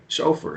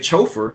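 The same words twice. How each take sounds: First: It begins with a 'sh' sound. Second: It begins with a 'ch' sound. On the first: The speaker calls it right. "we say chauffeur" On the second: The speaker calls it wrong. "we don't say chauffeur"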